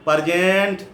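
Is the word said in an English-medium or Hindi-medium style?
Hindi-medium. It is said in a Hindi-medium school accent. The speaker sounds less impressive. The speaker calls it wrong. "in Hindi schools"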